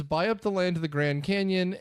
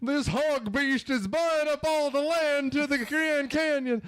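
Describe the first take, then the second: First: Said in the usual way. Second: High, drawn-out hammy movie villain; slow, pitched-up theatrical declaiming; Devil's Advocate parody. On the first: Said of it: "but that's what it is". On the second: Retold or imitated. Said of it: "have you seen Devil's Advocate?".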